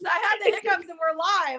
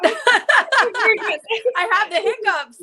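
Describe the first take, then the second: First: Said in the usual way. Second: Embarrassed laugh, much higher and slower. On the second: Real, not acted. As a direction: laugh it out, flustered. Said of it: "excuse me, I'm so sorry".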